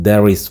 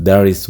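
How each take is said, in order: No difference in how they are said.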